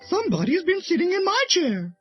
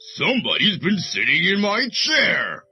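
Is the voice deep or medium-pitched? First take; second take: medium-pitched; deep. First: It is said in a middle-sized, medium voice. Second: It is said in a great big deep voice.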